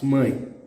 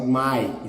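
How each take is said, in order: First: "mãe" with a nasalised ãe; nasal diphthong in "mãe"; nasal sound. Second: "mãe" wrongly said as oral "mai"; "mãe" with no nasal sound; without the tilde. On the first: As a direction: say "mãe" through the nose. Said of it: "It's mãe". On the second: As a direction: say "mãe" like English "my". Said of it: "is not mãe". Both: Shown as a demonstration.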